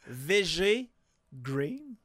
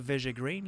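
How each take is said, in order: First: The phrase is said slowly and deliberately. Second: The phrase is said at a normal quick pace.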